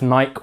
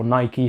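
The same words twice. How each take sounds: First: "Nike" as one syllable, with a silent final e. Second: "Nike" with the final e sounded as ee; two-syllable Nike. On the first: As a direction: say "Nike" to rhyme with bike. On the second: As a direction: say "Nike" as NY-kee. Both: Shown as a demonstration. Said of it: "however you pronounce it".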